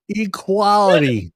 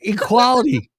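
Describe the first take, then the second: First: Slow drawn out. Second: Shouted. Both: Pretend.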